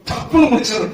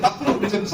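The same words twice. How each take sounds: First: Amused. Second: டப்புன்னு dropped much softer; quiet repeat. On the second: Preacher repeats the warning to the congregation, softer. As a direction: repeat டப்புன்னு முடிச்சிடும் softly, trailing away. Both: Shown as a demonstration.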